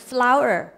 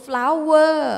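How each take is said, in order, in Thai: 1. ไม่ได้ยินเสียง w ชัดเจนตรงกลางคำ 2. ได้ยินเสียง w ชัดเจนตรงกลางคำ (1) "ตัวนี้ออกใหม่ flower ตัวนี้ w ไม่ออกเสียง" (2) "ถ้าเราออกเสียงว่า flower คือออกเสียงภาษาอังกฤษผิดแล้ว"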